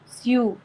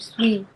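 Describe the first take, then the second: First: The syllable is said as 'syoo'. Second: The syllable is said as 'swee'. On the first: The speaker calls it right. "سيو، مش سوي" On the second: The speaker calls it wrong. "مش سوي"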